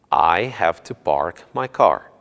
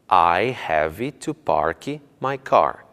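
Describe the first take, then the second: First: Park ends cleanly on its final consonant. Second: An extra 'ee' vowel follows the word park. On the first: The speaker calls it right. "A pronúncia correta é" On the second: The speaker calls it wrong. "e não"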